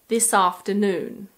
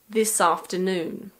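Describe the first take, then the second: The two takes are said the same way.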